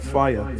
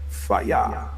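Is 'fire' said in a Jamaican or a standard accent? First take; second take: standard; Jamaican. First: The word is said in a standard accent. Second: The word is said in a Jamaican accent. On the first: "not fire" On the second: "You know how the so-called Jamaicans say it"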